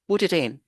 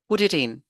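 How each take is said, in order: No difference in how they are said.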